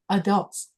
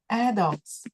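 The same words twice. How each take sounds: First: The stress is on the second syllable. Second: The stress is on the first syllable. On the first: "the second syllable is a stress" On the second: "Or you can say adults"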